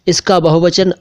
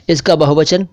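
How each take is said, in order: Both takes have the same delivery.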